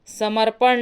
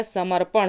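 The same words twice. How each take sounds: First: समर्पण ending in dental n; plain n at the end of समर्पण; wrong form. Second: समर्पण ending in retroflex ṇ; correct form. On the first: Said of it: "समर्पण नहीं होता है". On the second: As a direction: curl the tongue to end समर्पण. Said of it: "समर्पण होता है". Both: Shown as a demonstration.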